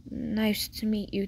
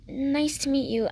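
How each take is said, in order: First: A hint of a man's character voice; lightly voiced male neighbour. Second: Lightly raised, polite greeting; a hint of a higher character voice; lightly voiced girl. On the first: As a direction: return the greeting slowly and evenly. Male neighbour returns the greeting. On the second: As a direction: greet a new neighbour politely. Girl greets her new neighbour.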